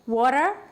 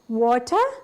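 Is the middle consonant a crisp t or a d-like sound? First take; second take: d-like; crisp t. First: The middle t sounds soft, like a d. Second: The middle t is crisp and clearly pronounced. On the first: "එක D sound එකක් එන්නේ" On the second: "T sound එක හොඳින් pronounce කරනවා"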